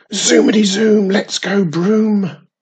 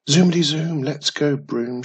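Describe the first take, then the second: First: Shouting witch. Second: Bright witch squeal. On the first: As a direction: belt it out as you take off. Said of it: "shouted Wizardy Witch". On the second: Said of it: "she squeals". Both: A narrator's reading.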